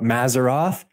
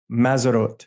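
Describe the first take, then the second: First: The word ends with a 'th' sound. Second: The word ends with a plain 't' sound.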